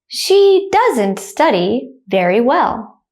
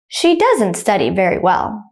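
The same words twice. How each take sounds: First: The sentence is spoken slowly. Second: The sentence is spoken quickly. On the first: "I'll say the first one slowly" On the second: "the second time I'll say it quickly like a native speaker"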